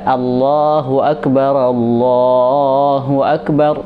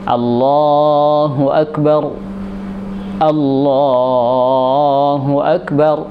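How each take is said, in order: First: The phrases run together with a linking vowel. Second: The two phrases are separated by a pause. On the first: "ketika dia disambung" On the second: "mestinya memang dipisah"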